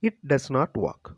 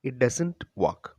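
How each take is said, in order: First: Does not is said as two full words. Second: Does not is joined into one word, doesn't.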